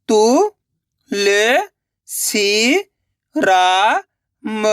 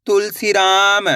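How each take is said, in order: First: Tulsiram stretched syllable by syllable; very slow sounding out. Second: Said in the usual way. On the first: Shown as a demonstration. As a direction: drag out Tulsiram slowly. (बहुत धीरे खींचकर Tulsiram) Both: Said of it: "पहले तुलसी पढ़ो".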